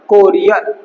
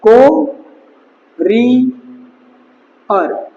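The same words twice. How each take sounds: First: Said in the usual way. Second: Drawn-out word. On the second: Shown as a demonstration. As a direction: stretch courier out very long and slowly. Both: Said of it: "बस ये यहीं से relate हो जाएगा अपना".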